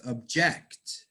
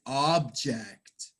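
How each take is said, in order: First: Ob-JECT, slow, stressed on the second syllable; verb stress. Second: OB-ject, slow, stressed on the first syllable; noun stress. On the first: Teacher showing students the verb form, second-syllable stress. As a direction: say object as a verb, weight on the end. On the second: Teacher showing students the noun form, first-syllable stress. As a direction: say object as a noun, weight up front. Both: Shown as a demonstration. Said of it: "pronounce these words differently".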